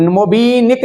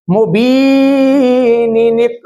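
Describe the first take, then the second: First: मुबीनिक said short as "mo-bee-nik", one "ni" missing; wrong linking. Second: मुबीनिनिक chanted slowly, very long "bee", then "ni-nik"; correct linking. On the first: Teacher warning against a misreading, मुबीनिक with the middle "ni" dropped. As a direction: drop a syllable from मुबीनिक, unstretched. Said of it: "मुबीनिक नहीं पढ़ेंगे". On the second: Teacher correcting the reading, मुबीनिनिक chanted long with both syllables. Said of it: "ऐसे पढ़ेंगे". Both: Shown as a demonstration.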